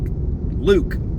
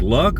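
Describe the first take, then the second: First: The vowel is long, like in 'Luke'. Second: The vowel is short, like in 'luck'. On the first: The speaker calls it right. "Turns out it's Luke" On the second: The speaker calls it wrong. "Because I was like"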